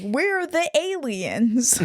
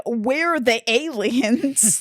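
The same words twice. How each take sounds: First: Slow, higher, stressed on We're; mock quote. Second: Slow, stressed on We're; mock quote. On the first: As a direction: repeat We're the aliens slowly, mocking. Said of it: "not using the term alien properly". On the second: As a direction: drag out We're the aliens mockingly. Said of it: "she says".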